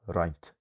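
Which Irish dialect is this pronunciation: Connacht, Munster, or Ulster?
Munster. Pronounced in Munster Irish with a lengthened vowel. "in Munster you get"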